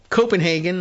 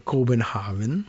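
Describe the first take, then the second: First: It is said the usual English way. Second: It is said closer to the Danish way. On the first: This is how English speakers name the city. "what we call Copenhagen" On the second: This is roughly how locals name the city. "I think they say Copenhagen, a little closer to something like that"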